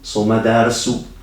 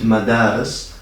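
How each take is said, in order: First: The word ends on an added u vowel. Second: The word ends on the s sound. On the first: The reader continues straight into the next word. "if you continue reading directly, you will read the ending u" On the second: The reader pauses after the word. "if you pause after the word, you will just read madaris"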